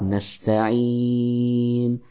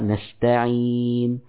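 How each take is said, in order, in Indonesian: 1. Vokal sebelum n di akhir dibaca sedang. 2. Vokal sebelum n di akhir dibaca sebentar. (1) "Boleh empat" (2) "Boleh dua"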